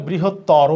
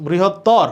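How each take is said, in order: First: "বৃহত্তর" slowly as brihot-toro; final O sounded. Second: "বৃহত্তর" slowly as brihot-tawr, ending on R; wrong clipped ending. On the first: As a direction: add a round O after the R in "বৃহত্তর". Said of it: "ওকার হবে". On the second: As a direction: stop "বৃহত্তর" on the r, no vowel after. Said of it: "না". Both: Shown as a demonstration.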